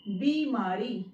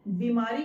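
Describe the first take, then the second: First: बीमारी as "bee-maa-ree", both ee long; long ee sounds. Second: बीमारी with a short first "bi"; wrong pronunciation. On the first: Teacher models correct word, long-vowelled बीमारी. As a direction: stretch first and last vowels of बीमारी. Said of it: "यहाँ पर भी ई की sound आएगी". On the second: Teacher shows the non-word, short-vowel बीमारी. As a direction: clip the opening vowel of बीमारी. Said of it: "बीमारी कोई शब्द नहीं होता है". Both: Shown as a demonstration.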